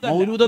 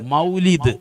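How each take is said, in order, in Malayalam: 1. രണ്ടാമത്തെ സ്വരാക്ഷരം ദീർഘമായ 'oo' ശബ്ദമാണ്. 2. രണ്ടാമത്തെ സ്വരാക്ഷരം ഹ്രസ്വമായ 'i' ശബ്ദമാണ്. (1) "മൗലൂദ് എന്ന് പറയുന്നത് തെറ്റാണ്" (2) "എങ്ങനെയാണ് പറയേണ്ടത്? മൗലിദ്"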